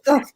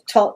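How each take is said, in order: First: The name begins with a 'th' sound. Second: The name begins with a plain 't' sound.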